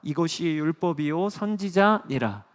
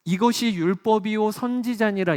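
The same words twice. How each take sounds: First: Said in the usual way. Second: 이것이 hit higher and louder, falling at 선지자니라; emphatic repeat. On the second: Shown as a demonstration. Pastor drives the verse home to the congregation, higher and louder. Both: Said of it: "repeats the verse".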